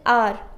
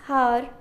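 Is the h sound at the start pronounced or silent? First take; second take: silent; pronounced. First: The word begins with a vowel, h silent. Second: The word begins with an audible h sound. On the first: The speaker calls it right. "H is silent over here in R" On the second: The speaker calls it wrong. "H O U R is not har"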